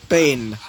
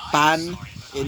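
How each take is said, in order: First: "pain" said like brain, rhyming long ay; English pain. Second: "pan" as French pain, nasal vowel, no ay. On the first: Explaining the bread joke, "pain" as in brain. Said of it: "as in brain". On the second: Explaining the joke to listeners, "pan" said French style. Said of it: "French literally means bread". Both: Shown as a demonstration.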